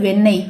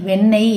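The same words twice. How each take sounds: Both takes have the same delivery.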